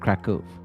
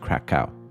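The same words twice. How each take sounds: First: The name is pronounced the Polish way. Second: The name is pronounced the English way. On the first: "The real pronunciation is obviously the Polish one" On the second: "as we say in English"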